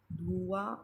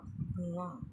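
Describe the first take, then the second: First: "धुआं" as dhoo-aan, rising; wrong-form demo, long oo in "धुआं"; mispronounced long u. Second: Said in the usual way. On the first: Shown as a demonstration. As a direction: stretch the first vowel of "धुआं". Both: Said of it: "छोटे ऊ के स्थान पर बड़े ऊ".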